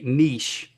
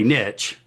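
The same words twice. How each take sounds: First: It uses a pronunciation not used in the South. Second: It uses the pronunciation used in the South. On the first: "we don't say niche down here in the South" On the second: "we say niche"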